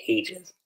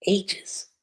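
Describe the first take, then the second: First: Said in the usual way. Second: AGES pushed much higher in pitch; emphatic repeat. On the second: Real, not acted. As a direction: stress "ages" with a high, emphatic lift. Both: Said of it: "I mean, ages".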